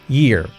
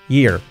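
The two takes are said the same way.

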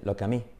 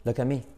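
First: The t in 'at' is left out. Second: The t in 'at' is left out.

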